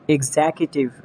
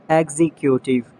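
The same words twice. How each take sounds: First: "Executive" as ig-ZEK-i-tiv; British pronunciation. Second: "Executive" as EX-ee-kyoo-tiv; mispronounced executive. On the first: Shown as a demonstration. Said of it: "exact pronunciation according to the British". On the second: Acted. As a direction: stress EX in "Executive". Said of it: "you have to correct me".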